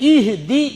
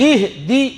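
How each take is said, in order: Both takes have the same delivery.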